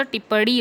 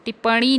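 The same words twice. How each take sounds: First: टिप्पणी with a curled-tongue flap in the last syllable; correct pronunciation. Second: टिप्पणी with a nasal n in the last syllable; wrong pronunciation. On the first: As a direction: say टिप्पणी as tippaṇi, close to tippaḍi. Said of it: "टिप्पणी होता है". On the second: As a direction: say टिप्पणी as tippani. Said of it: "टिप्पणी नहीं होता". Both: Shown as a demonstration.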